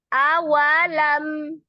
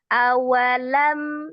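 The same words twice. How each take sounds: First: The first syllable is raised and drawn out. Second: The first syllable is level and short. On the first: The speaker calls it wrong. "Itu kan agak manja, menaikkan a, wa-nya" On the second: The speaker calls it right. "Jadi padahal dia satu harokat saja"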